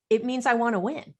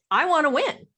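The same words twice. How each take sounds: First: Said in the usual way. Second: "wanna" pushed higher and louder; stress on wanna. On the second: Shown as a demonstration. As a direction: lean hard on "wanna" in "I wanna win".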